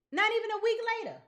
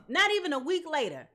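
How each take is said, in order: First: "Not even a week later" fast and higher, disbelieving. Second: Said in the usual way. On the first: Shown as a demonstration. Reader repeating the timeline in fast high disbelief.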